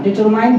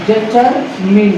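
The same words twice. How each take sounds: First: डिटरमाइन ending in "mine"; long "ai" at the end of डिटरमाइन; usual mispronunciation. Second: डिटरमिन slowly, ending in short "min"; corrected pronunciation. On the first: Teacher quoting what we used to say, mispronounced. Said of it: "बोलते थे हम". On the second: Teacher telling students what to say, corrected. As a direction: split डिटरमिन as deter... MIN. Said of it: "इसको बोलेंगे लेकिन". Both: Shown as a demonstration.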